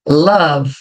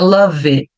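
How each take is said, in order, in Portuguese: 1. Termina no V, sem vogal. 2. Um som de vogal é acrescentado depois do V. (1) "eu não vou pronunciar o E" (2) "não é love"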